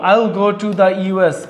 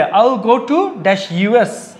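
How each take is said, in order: First: Very slow, putting the in the gap; slow answer read. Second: Very slow, word by word, pausing on the dash; slow blank-filling read. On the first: Teacher giving students the filled answer, slow and deliberate. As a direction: spell out the answer slowly. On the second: Teacher reading the exercise to students, slow and deliberate. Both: Shown as a demonstration. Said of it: "আমি কি করব?".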